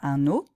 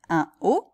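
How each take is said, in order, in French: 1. Un son n relie les deux mots ensemble. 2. Les deux mots restent séparés, sans liaison en n. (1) "pas un o" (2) "on va dire un o"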